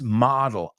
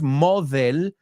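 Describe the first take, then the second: First: The d sounds like a hard d. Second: The d sounds soft, like a th. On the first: The speaker calls it right. "it's model. Y la D no es tan th" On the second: The speaker calls it wrong. "No es model"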